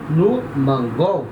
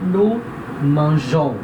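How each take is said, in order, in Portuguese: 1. A consoante do meio é um som de g duro. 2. A consoante do meio é um som de j suave. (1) "vai ficar som de go" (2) "Para manter esse som de J"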